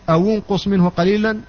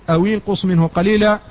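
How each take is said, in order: The two takes are said the same way.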